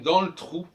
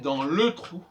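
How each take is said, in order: First: The e in 'le' is dropped. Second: The e in 'le' is fully pronounced. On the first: The speaker calls it right. "ben c'est pareil" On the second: The speaker calls it wrong. "on va pas prononcer"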